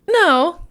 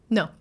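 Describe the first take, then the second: First: It sounds unsure, with a hesitant inflected tune. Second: It sounds refusing, short and flat in tune. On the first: The answer is actually maybe. "Give me a no where you mean maybe" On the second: The answer really is no. "the short ... there's not as much inflection"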